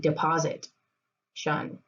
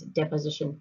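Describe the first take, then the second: First: The word is split into deposit plus shun. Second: The word is said smoothly in the usual way. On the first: The speaker calls it wrong. "if you need to pronounce it incorrectly" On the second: The speaker calls it right. "I know we pronounce deposition differently"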